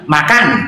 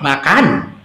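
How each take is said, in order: First: It is said in a Batak accent, forcefully. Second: It is said in a Javanese accent, softly.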